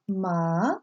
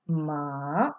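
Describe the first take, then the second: First: The pitch rises like a question. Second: The pitch dips down and then rises. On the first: "Second tone is raised up like a question" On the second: "The voice dips and rises"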